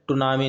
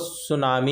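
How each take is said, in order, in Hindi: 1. यह शब्द T ध्वनि से शुरू होता है। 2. यह शब्द S ध्वनि से शुरू होता है। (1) "टुनामी नहीं होता" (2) "वो सुनामी ही होता है भाई, टी साइलेंट होता है"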